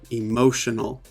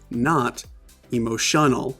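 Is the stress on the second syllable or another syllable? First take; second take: second; another. First: The stress is on the second syllable. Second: The stress is on a different syllable. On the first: The speaker calls it right. "this is the stressed syllable in the word emotional" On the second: The speaker calls it wrong. "That would be wrong"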